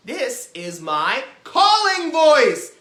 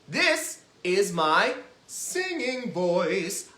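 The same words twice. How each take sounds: First: Loud, high, drawn-out call; big projected calling voice. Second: Slow, sustained sung line; singing voice. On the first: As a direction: call out slowly at full volume. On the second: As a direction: sing it out simply. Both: Shown as a demonstration.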